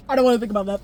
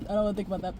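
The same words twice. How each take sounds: First: Said in the usual way. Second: Softer, lower, trailing off; fading to a murmur. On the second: Real, not acted. Vlogger avoiding the sad thought, fading murmur. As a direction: let it die away in distress. Third repeat, almost gone.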